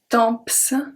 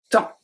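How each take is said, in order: First: The P and S at the end are pronounced. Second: The P and S at the end are silent. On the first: The speaker calls it wrong. "We don't say temps. Don't say that" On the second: The speaker calls it right. "Don't pronounce the P, don't pronounce the S"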